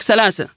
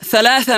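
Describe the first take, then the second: First: The word is said with s sounds. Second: The word is said with th sounds. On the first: The speaker calls it wrong. "نحول الثاء إلى سين" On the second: The speaker calls it right. "بدل ما يقرأها ثلاثة"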